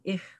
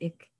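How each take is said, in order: First: It is said in a Swabian dialect. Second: It is said in a Berlin dialect. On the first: "Those from Schwaben" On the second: "The Berliners pronounce it ich"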